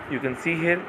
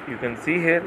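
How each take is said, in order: Both takes have the same delivery.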